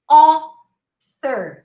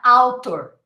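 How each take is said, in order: First: The first vowel is a single rounded O sound. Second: The first vowel glides from A to U. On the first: The speaker calls it right. "you see A U, but you pronounce O" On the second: The speaker calls it wrong. "not author"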